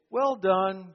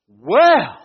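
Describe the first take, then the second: First: It is said flatly, without excitement. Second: It is said as an excited exclamation.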